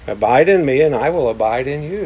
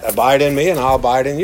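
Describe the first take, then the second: First: It is said in a gentle, inviting tone. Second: It is said in a threatening tone.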